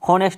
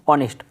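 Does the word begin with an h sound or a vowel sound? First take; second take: h sound; vowel sound. First: The word begins with an audible h sound. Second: The word begins directly with a vowel sound. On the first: The speaker calls it wrong. "हॉनेस्ट नहीं बोलना" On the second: The speaker calls it right. "अ का sound होगा"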